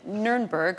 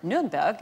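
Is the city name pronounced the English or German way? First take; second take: English; German. First: The name is said with English pronunciation. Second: The name is said with German pronunciation.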